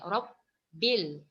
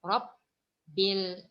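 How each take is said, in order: Both takes have the same delivery.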